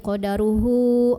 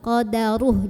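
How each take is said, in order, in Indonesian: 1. Kata ini berakhir pada vokal u panjang. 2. Kata ini berakhir pada konsonan mati. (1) "jadi nggak jadi dibaca kayak matobi'i qadaruhu, enggak ya" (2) "kalau berhenti jadi sukun"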